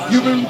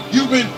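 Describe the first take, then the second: No difference in how they are said.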